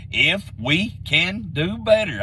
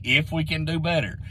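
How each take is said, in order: First: If we can do better, each word drawn out slowly; slow it right down so it sinks in. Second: Said in the usual way. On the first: Shown as a demonstration. To fans doubting the coaching change, spelled out very slowly. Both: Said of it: "let me say that very slowly".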